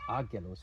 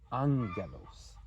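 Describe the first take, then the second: First: The middle consonant is a plain g sound. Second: The middle consonant is a nasal ng sound. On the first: The speaker calls it wrong. "It's not agelos" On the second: The speaker calls it right. "it's angelos"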